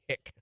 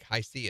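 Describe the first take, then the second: First: It is said as one short syllable. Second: It is said as two separate letter names. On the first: "my kids pronounce the soda drink Hi-C as hick" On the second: "the soda drink Hi-C"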